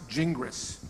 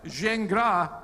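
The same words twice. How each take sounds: First: The name is said with an English pronunciation. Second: The name is said with a French pronunciation. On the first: This is the form used in English-speaking countries. "in English speaking countries, it's best pronounced Gingras" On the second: This is the original French form of the name. "is the correct French pronunciation"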